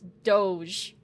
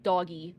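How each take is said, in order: First: The word is not pronounced like 'doggy'. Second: The word is pronounced like 'doggy'. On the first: The speaker calls it right. "no, it's Doge" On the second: The speaker calls it wrong. "he was convinced that it was pronounced doggy"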